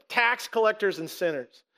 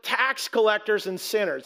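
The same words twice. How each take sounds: First: "Tax collectors and sinners" repeated alone with pointed stress; single out "Tax collectors and sinners" with deliberate inflection; demonstrated inflection. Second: "tax collectors and sinners" stressed within an acted question; pointed inflection. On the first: Shown as a demonstration. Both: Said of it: "there's gotta be inflection there".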